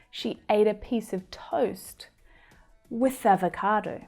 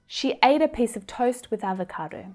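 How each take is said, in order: First: The sentence is said at a slower pace. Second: The sentence is said at a faster pace.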